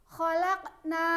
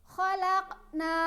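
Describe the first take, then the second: Both takes have the same delivery.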